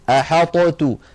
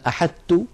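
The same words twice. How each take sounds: First: The ṭ is released with a bounce before t. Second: The ṭ is fully merged into a doubled t. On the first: "ولو أظهرنا الطاء لابد من قلقلتها فنقول أحطت، لو نطقتموها تجدونها ثقيلة" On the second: "هل تدغم هذه الطاء في التاء؟ فنقول مثلا أحطت، هذا لم تفعله العرب"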